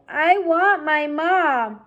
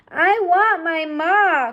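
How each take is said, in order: First: Slow, high wail; crying. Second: Slow, high, tearful wail; crying. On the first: Mig crying again, slow tearful wail. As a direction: plead it out tearfully. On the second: Mig crying for her mother, slow tearful wail. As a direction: sob out the longing. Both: Acted. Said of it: "cried Mig".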